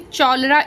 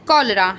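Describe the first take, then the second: First: The word begins with a ch sound. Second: The word begins with a k sound. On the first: The speaker calls it wrong. "हम इसको यहाँ पे च sound नहीं पढ़ रहे, चौलरा इस तरीके से नहीं बोल रहे हैं" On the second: The speaker calls it right. "यहाँ पर क साउंड प्रोनाउंस हो रहा है"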